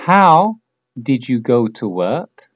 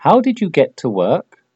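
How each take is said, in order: First: Slow, careful, word by word; slow model question. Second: Said in the usual way. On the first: Shown as a demonstration. Teacher models the question slowly for repetition, slow and clear. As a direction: say it slowly so they can repeat. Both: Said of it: "repites lo que digo yo".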